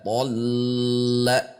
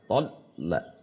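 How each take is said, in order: First: The L sound is held long. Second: The L sound is cut off abruptly.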